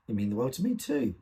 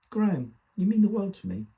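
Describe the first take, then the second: First: Said in the usual way. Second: High, emphatic mother's voice, louder on the declaration; mother's fond declaration. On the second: Acted. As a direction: voice a mother's affection, pitched well up. Mother's declaration, quoted by son.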